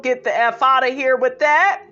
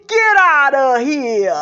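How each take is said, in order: First: Said in the usual way. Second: Put-on loud, drawn-out New York accent; slow, punchy New York catchphrase. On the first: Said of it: "Another person says". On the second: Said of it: "I love her New York accent".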